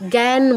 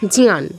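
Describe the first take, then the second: First: Said without a distinct j and ñ cluster. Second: Said with a half j joined to full ñ. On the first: "যেটা আমরা বাংলায় জ্ঞান বলি" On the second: "জ অর্ধেক ঞ পূর্ণ সাথে আকার"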